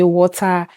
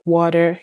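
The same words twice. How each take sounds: First: Said in the usual way. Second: "water" in a Canadian accent, with a tapped "d" for the t; imitated Canadian "water"; Canadian pronunciation. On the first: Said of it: "we'll say water". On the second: Shown as a demonstration. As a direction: say "water" the Canadian way, like "wah-der". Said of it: "and you say water".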